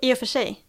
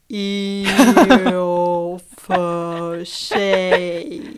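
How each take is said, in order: First: The phrase is said quickly at normal speed. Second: The phrase is said slowly with each word clear. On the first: "Man säger det så snabbt" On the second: "Jag kan säga det långsamt"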